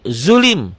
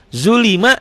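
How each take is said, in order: First: The word ends on a bare consonant. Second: The word ends with a short vowel. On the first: The reading stops on the word. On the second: The reading continues past the word.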